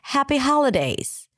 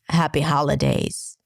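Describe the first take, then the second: First: It is said with a high, friendly pitch. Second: It is said with a low, deep pitch. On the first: The greeting sounds warm and friendly. The speaker calls it right. "Like friendly pitch" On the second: The greeting could sound creepy and eerie. The speaker calls it wrong. "if you say it with this low"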